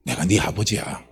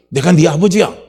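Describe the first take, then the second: First: Low, soft fatherly voice; quiet, deep-pitched tender assurance; fatherly reassurance. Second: Loud, emphatic fatherly voice; raised-voice declaration as a father; forceful fatherly declaration. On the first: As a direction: reassure gently, dropping right down. God reassures the despairing person. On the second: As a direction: proclaim it with full conviction. God repeats it forcefully. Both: Acted.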